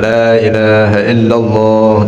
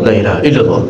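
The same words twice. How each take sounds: First: The phrase is said slowly and calmly. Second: The phrase is said quickly and hurriedly. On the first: The speaker calls it right. "mula-mula dia zikir bagus, pelan" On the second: The speaker calls it wrong. "lama-lama makin cepat"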